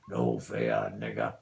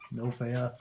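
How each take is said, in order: First: Dropped way down into a deep, hammed-up gangster voice; mock tough guy. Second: Said in the usual way. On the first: Owner taunting the pet bird in a deep mock-tough voice. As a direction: growl it low like a movie hard man.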